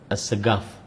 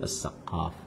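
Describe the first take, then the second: First: The name is said with a plain G sound. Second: The name is said with a deep Arabic Q.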